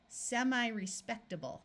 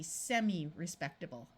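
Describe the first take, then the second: First: Semi-respectable with semi said "sem-eye"; semi with long I. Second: Semi-respectable with semi said "sem-ee". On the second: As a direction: say semi-respectable ending semi in a short EE sound. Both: Shown as a demonstration. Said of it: "Semi can also be pronounced semi".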